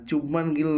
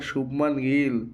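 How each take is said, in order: First: The name begins with a 'ch' sound. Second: The name begins with an 'sh' sound. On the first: The speaker calls it wrong. "চুবমান Gill নয়" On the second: The speaker calls it right. "ওটা শুভমান গিল"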